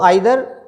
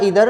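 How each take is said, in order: First: The first vowel sounds like 'eye'. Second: The first vowel sounds like 'ee'. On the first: "दोनों तरह से का उच्चारण सही है" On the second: "दोनों तरह से का उच्चारण सही है"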